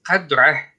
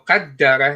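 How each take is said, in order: First: The d sound in the middle is short. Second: The d sound in the middle is doubled. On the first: It refers to measure. "If it was قدره, that means it's measure" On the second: It refers to destiny. "that means it's destiny"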